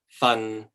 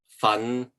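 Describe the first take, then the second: First: The syllable is said in the sixth tone. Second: The syllable is said in the fifth tone. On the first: It means a portion. "This one is a portion" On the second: It means to work hard. "The fifth one is to uh, work hard at something"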